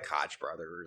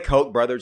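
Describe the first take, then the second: First: Koch is given a silly, joking pronunciation. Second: Koch is given its standard pronunciation. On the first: The speaker calls it wrong. "I like to pronounce things in silly ways because it's funny" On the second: The speaker calls it right. "I can say Koch brothers"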